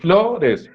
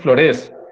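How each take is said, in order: First: The stress is on the first syllable. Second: The stress is on the last syllable. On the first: The speaker calls it right. "el acento está al inicio" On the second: The speaker calls it wrong. "Tú no dices flores"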